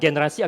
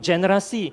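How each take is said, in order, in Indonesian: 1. Kata ini dimulai dengan bunyi g keras. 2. Kata ini dimulai dengan bunyi g lunak. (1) "huruf pertamanya G" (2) "generasi muda sekarang suka menggunakan"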